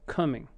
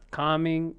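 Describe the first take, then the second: First: The first vowel is a reduced 'uh' sound. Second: The first vowel is a full, open vowel. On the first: The speaker calls it right. "it's just uh, coming" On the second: The speaker calls it wrong. "It's it's not calming"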